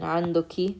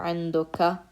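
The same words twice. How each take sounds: First: عندك said "andaki", ending in a short i; formal feminine عندك with the final "-ki" clearly sounded. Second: عندك said "andaka", ending in a short a; formal عندك with the final "-ka" clearly sounded; formal masculine ending. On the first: Teacher showing students the formal feminine عندك, ending on "-ki". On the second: Teacher showing students the formal masculine عندك, ending on "-ka". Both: Shown as a demonstration. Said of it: "with the dhamma here".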